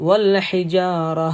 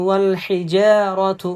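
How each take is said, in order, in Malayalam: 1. വാക്ക് മൃദുവായ h ശബ്ദത്തിലാണ് അവസാനിക്കുന്നത്. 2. വാക്ക് തുടർന്ന് ഒഴുകുന്ന tu ശബ്ദത്തിലാണ് അവസാനിക്കുന്നത്. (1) "നിർത്തുമ്പോൾ വൽ ഹിജാറ എന്ന ഹ എന്ന ശബ്ദമായിരിക്കും ഉണ്ടാവുക" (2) "ശ്വാസമൊക്കെ ഉണ്ടെങ്കിൽ ... എന്ന് ഓതാം"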